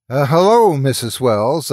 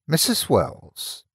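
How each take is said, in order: First: Raised voice, careful and crisp; louder and precise. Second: Put-on thick rural English accent, slow. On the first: Young woman speaks up to deaf old lady, louder. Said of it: "with a higher volume and precision". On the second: Narrator greets old woman in rural accent, slow. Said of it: "in the same thick rural accent". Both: A narrator's reading.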